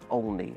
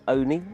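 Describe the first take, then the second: First: The name does not sound like 'only' or rhyme with pony. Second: The name sounds like 'only', rhyming with pony. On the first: The speaker is new to the area. "if someone's new to the area, then they call it Olney" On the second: The speaker is from the area. "they're local, they call it Only, as in pony"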